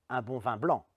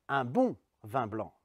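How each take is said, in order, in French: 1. L'accent est sur le mot blanc. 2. L'accent est sur le mot bon. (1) "c'est du blanc et pas autre chose que je veux" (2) "La deuxième fois, sur le côté bon"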